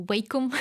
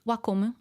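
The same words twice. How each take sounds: First: Wacom said as WAY-kum; first vowel of Wacom as in 'day'; Wacom with 'way'. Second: Wacom said as WAH-kum; first vowel of Wacom as in 'father'; Wacom with 'wah'. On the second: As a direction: say Wacom with an open 'ah' first. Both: Shown as a demonstration. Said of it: "depending on how you say it".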